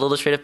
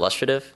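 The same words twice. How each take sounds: First: The word is said plainly as it is spelled. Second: The word is said with a British pronunciation. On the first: "it's spelled illustrative" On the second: "they pronounce it illustrative. Again, the British"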